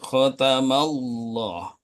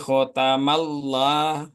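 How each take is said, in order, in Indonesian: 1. L dalam Allah tebal dan penuh. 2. L dalam Allah tipis dan ringan. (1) "lamnya dibaca tebal" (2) "tidak diperbolehkan"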